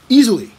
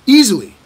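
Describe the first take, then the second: No difference in how they are said.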